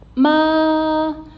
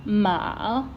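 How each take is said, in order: First: The pitch stays level and is held long. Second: The pitch rises from lower to higher. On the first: "Being a flat tone, we have to sustain a little bit" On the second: "it's a rising tone"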